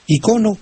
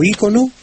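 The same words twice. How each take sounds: First: "icono" as i-CO-no; stress on CO. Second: "ícono" as Í-co-no; stress on first I. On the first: Maestro explains both accepted forms, "icono" stressed on CO. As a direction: hit the second syllable of "icono". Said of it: "segunda sílaba". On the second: Maestro explains both accepted forms, "ícono" stressed on Í. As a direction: hit the first syllable of "ícono". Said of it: "está también aceptado ícono". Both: Shown as a demonstration.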